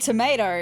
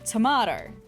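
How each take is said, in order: First: The word is said in an American accent. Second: The word is said in an Australian accent. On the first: The speaker calls it wrong. "We do not say tomato in Australia... listening to too many U S YouTubers" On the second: The speaker calls it right. "We say tomato in Australia"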